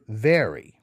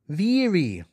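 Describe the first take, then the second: First: The first vowel sounds like 'e' in 'bed'. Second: The first vowel sounds close to 'ee'.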